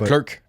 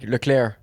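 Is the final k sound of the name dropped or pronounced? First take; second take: pronounced; dropped. First: The final k sound is clearly pronounced. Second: The final k sound is left off. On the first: This is the usual French-speaking way of saying it. "À la place de" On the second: This is how English-speaking commentators say it. "Ils disent pas le C à la fin"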